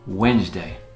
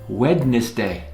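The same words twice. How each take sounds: First: The word is said with its usual reduced sounds. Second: Every written letter is sounded out. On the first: "but it's pronounced Wednesday" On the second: "It's spelled Wednesday"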